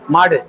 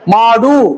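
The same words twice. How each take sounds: First: The final vowel is reduced and barely pronounced. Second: The final vowel is pronounced fully and clearly. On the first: The speaker calls it right. "அந்த டூ முழுக்க நாம உச்சரிக்கல" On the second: The speaker calls it wrong. "அப்படி சொல்ல மாட்டேன்"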